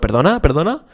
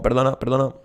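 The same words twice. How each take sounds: First: The pitch goes up, sounding like asking permission. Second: The pitch stays fairly level throughout.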